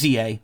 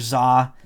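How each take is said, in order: First: It is said as two separate letter names. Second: It is said as one single syllable. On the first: The speaker calls it right. "You just pronounce the letters" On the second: The speaker calls it wrong. "A lot of people thought it was Z two A or Za"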